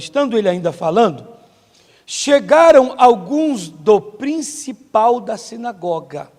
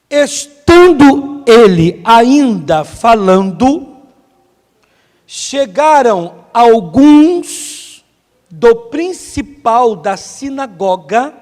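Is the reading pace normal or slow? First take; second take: normal; slow. First: It is read at a normal, flowing pace. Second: It is read slowly with deliberate pauses.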